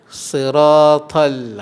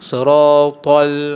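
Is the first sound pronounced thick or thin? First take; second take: thin; thick. First: The first sound is lighter and thinner. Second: The first sound is heavy and thick. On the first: The speaker calls it right. "Yang betulnya siratal ha, nipis sikit" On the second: The speaker calls it wrong. "tebal kan?"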